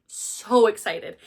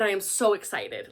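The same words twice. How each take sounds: First: SO stretched long and slow before excited; drawn-out SO. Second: Said in the usual way. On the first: Real, not acted. Vlogger repeats how keen they are, slow stretched SO. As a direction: hold the word "so" for emphasis.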